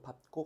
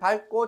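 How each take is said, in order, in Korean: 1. 첫 음절은 P 소리로 끝나요. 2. 첫 음절은 L 소리로 끝나요. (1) "잘 생각해서 이 발음을 해" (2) "우리는 밟고라 해"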